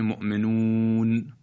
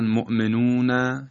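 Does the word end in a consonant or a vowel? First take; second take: consonant; vowel. First: The word ends on a bare final consonant. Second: The word ends with a short final vowel. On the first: The reader stops at the end of the word. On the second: The word is read without stopping.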